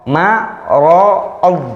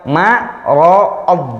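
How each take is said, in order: Both takes have the same delivery.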